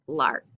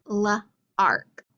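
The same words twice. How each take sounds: First: Said in the usual way. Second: Slow "l-ark", split after the l; sounded out. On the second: Shown as a demonstration. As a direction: say luh, pause, then ark. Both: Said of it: "L is after J".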